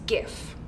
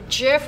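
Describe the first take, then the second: First: The word begins with a hard G sound. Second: The word begins with a soft J sound. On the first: The speaker calls it right. "it's a G sound, it's a G" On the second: The speaker calls it wrong. "would be a J sound, a J"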